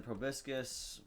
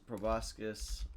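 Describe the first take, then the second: First: "proboscis" with a short i in the middle; short-i pronunciation. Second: "proboscis" with an open o in the middle; open-o pronunciation. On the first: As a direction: say "proboscis" as pro-BIS-kus. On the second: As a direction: say "proboscis" as pro-BOSS-kus. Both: Real, not acted. Trying two pronunciations of the word.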